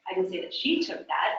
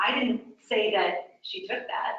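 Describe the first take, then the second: First: "she" stressed with a rise. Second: "I" stressed, falling. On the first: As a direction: lift and hit "she". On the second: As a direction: lean on "I" at the start. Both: Shown as a demonstration. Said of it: "by the word I'm emphasizing".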